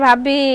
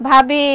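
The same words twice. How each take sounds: No difference in how they are said.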